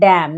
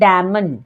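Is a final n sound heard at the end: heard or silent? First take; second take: silent; heard. First: The word ends on m with no n. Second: The word ends with an n sound after m. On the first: The speaker calls it right. "पढ़ते हैं डैम" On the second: The speaker calls it wrong. "ना कि डैमन"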